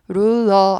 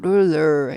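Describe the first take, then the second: First: The final r is plain, without a curled tongue. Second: The final r is said with a curled tongue. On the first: The speaker calls it wrong. "아니고" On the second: The speaker calls it right. "R이 끝에 있으니까 구부리시는 거죠"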